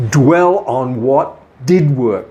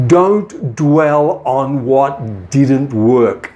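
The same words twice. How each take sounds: First: Slow, "did" hit firmly in contrast; stress on DID. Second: Slow, with "don't" and "didn't" pressed hard; stress on DIDN'T. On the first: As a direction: punch "did work", the right focus. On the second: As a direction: lean on "didn't work", the wrong focus. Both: Shown as a demonstration.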